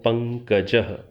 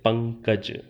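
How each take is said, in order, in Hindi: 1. शब्द के अंत में एक अतिरिक्त फुसफुसाती "h" ध्वनि जुड़ती है। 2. शब्द बिना किसी अंतिम सांस के सीधा समाप्त होता है। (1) "संस्कृत में इसका उच्चारण जैसे मैं कर रहा हूं पंकजः विसर्गांत" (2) "आप सामान्य रूप से हिंदी में शायद इतना ही कहते हैं"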